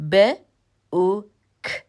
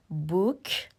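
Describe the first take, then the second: First: ب، او، ک as three separate sounds with pauses; isolated letter sounds ب، او، ک, slowly spaced; sounded out. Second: Said in the usual way. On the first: Shown as a demonstration. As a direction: sound out بوک bit by bit: "b", "oo", "k". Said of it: "حروف را کنار هم قرار بدین". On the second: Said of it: "مثل بوک".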